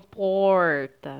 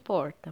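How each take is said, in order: First: The word is drawn out, sounding longer. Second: The word is clipped, sounding shorter. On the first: "algumas pessoas falam porta" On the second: "mais breve"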